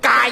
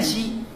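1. 这是用粤语发音的。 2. 这是用普通话发音的。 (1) "但是广东话您别忘了" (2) "鸡不念鸡"

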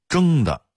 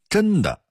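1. 第一个音节以后鼻音结尾。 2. 第一个音节以前鼻音结尾。

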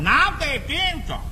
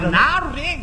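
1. 这个短语说得慢一些。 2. 这个短语说得快，几个字连在一起。

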